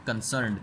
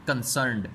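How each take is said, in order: Both takes have the same delivery.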